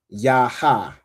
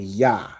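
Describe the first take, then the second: First: Two separate syllables, each with its vowel. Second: One joined syllable with the second vowel dropped. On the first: The speaker calls it wrong. "instead of saying ya ha" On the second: The speaker calls it right. "you just say ya. So it's like saying Y A H"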